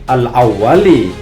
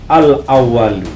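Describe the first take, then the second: First: The word ends with an 'i' vowel. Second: The word ends with a 'u' vowel. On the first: The word is read in the genitive case. The speaker calls it right. "yang lebih tepat kalau memahami ilmu nahwu" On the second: The word is read in the nominative case. The speaker calls it wrong. "Al-awwalu ini oleh beliau dibaca rofa"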